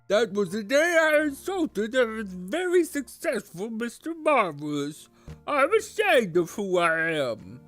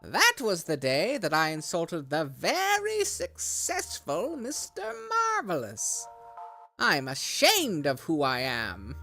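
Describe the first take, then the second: First: It is said in a mocking put-on voice. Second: It is said in his normal voice.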